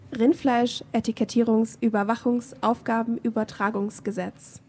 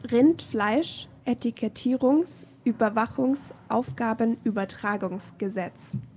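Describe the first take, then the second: First: The long word is said at normal speed. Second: The long word is said extra slowly.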